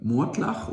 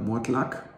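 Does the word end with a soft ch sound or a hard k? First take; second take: ch; hard k. First: The word ends with a soft ch sound. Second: The word ends with a hard k sound. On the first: The speaker calls it right. "Mortlach ist schöner" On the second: The speaker calls it wrong. "Mortlack, da konntest du jetzt die Schuhe lackieren"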